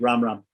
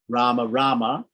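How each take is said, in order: First: Each name ends on the m sound. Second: Each name ends with a short a vowel. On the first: "in the Hindi pronunciation, they drop the the the a" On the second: "the short a at the end of of, of Rama"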